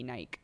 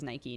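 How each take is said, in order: First: "Nike" rhyming with bike; British pronunciation. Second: "Nike" said as NY-kee; two-syllable pronunciation. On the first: Showing how England says it, "Nike" pronounced like bike. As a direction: say "Nike" as one syllable, no ee ending. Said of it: "everybody in England pronounces". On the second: Naming the brand before correcting it, "Nike" pronounced NY-kee. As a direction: say "Nike" with an ee ending. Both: Shown as a demonstration.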